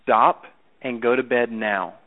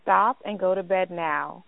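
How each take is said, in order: First: Slow and firm, falling at the ends; stern bedtime order with a down tone; authoritative down tone. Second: Firm parent at bedtime; mild firm command; understated stern mom; authoritative tone. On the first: Shown as a demonstration. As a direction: pause between words and bring the tune down on "now". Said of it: "You just said it like this". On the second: Real, not acted. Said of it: "did you just recognize that authoritative tone".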